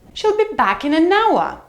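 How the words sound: The voice falls from a high pitch. "Or high fall"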